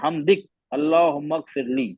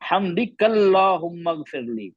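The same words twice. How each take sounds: First: There is a pause after the first word. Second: The words run together without a pause. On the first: "रुक गया तो" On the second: "अगर नहीं रुके"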